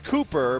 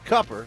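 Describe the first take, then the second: First: The name is said the standard way. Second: The name is said the Southern way. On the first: "it's Cooper" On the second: "they in the South say Cupper"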